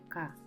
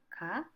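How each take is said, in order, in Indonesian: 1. Nada turun di akhir. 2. Nada naik di akhir. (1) "diucapkan dengan intonasi yang menurun, maka menjadi kalimat pernyataan" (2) "diucapkan dengan intonasi yang meninggi, maka bisa menjadi pertanyaan"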